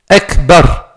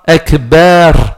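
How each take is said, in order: First: The vowel after the b is kept short. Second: The vowel after the b is drawn out long. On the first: The speaker calls it right. "On écrit Akbar" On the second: The speaker calls it wrong. "On n'écrit pas Akbar"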